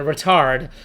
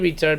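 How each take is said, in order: First: It is said in a British accent. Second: It is said in an American accent. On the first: It is a harmless-sounding word. The speaker calls it right. "I'm saying it the British way" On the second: It is the offensive word. The speaker calls it wrong.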